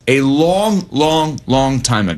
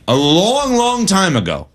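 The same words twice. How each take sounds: First: Three separate beats on "long, long, long", each one drawn out; emphatic repetition. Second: LONG drawn out and raised high, falling on "time ago"; emphatic stretch. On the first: Host re-emphasizing how long ago Watson was good, emphatic repetition. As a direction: hammer every LONG as its own stressed word. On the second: Host stressing how long ago Watson was good, emphatic stretch. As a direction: stretch "long, long" with a big pitch swell. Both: Real, not acted. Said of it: "let me re-, emphasize".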